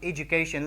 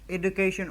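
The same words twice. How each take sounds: First: The D before the U sounds like J. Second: The D before the U sounds like plain D. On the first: The speaker calls it right. "but how we would call this one education" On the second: The speaker calls it wrong. "We don't call this education"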